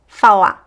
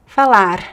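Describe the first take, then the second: First: The final R is dropped, ending on the vowel. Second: The final R is a quick tongue flap. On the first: "it disappears, right? We just hear the vowel" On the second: "It could be like the flap T"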